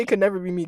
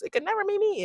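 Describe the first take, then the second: First: Said in the usual way. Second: Very high-pitched, mimicked dismissal; mock boaster. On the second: Quoting someone who says it could never happen, high mocking imitation. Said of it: "every time someone says".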